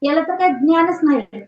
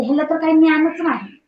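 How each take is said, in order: First: "ज्ञान" with the full dnya cluster; corrected "ज्ञान", sounding द and न्य together; correct pronunciation. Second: "ज्ञान" said as "न्यान", no द at the start; everyday slip, "ज्ञान" opening on a plain ny; common mispronunciation. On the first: Shown as a demonstration. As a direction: model "ज्ञान" as "द्न्यान", stop before the ny. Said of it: "मग ते ज्ञान नाही असं नाही". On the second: Retold or imitated. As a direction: imitate casual speech, softening "ज्ञान" to "न्यान". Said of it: "काही काही वेळा बघा असं म्हणलं जातं".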